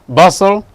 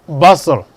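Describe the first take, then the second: Both takes have the same delivery.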